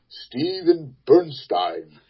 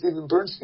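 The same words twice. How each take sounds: First: The surname ends with a 'stine' sound. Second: The surname does not end with a 'stine' sound. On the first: This is how someone else said the name. The speaker calls it wrong. "He pronounced it" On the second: This is how the name's owner says it. The speaker calls it right. "I pronounced it"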